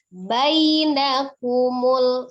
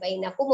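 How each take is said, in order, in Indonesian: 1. Vokal setelah b terdengar penuh dan jelas. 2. Vokal setelah b terdengar samar dan tidak jelas. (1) "tapi bainakumul seperti itu ya" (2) "tidak bainakumul ya"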